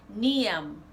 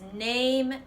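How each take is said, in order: First: It is said with a Jamaican patois accent. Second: It is said with a standard English accent.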